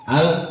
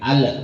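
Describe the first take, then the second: First: The L is held smoothly without any echo. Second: The L bounces with an added echo sound. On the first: The speaker calls it right. "ujung lidah itu ditempelkan langsung di langit-langit" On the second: The speaker calls it wrong. "masih ada yang tawalud, masih ada yang al"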